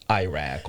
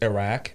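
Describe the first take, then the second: First: The first vowel sounds like the word 'eye'. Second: The first vowel is short, like 'ih'. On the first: This comes from reading the spelling. "they just see- see the I and they just say Iraq" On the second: This is closer to the original pronunciation. "the way I say it is Iraq because that's closer to the Arabic pronunciation"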